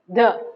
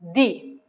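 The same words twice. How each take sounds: First: The vowel is a short, weak uh sound. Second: The vowel is a long, clear ee sound. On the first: It comes before a consonant. "the plus uh, a over here" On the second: It comes before a vowel. "the plus e over here"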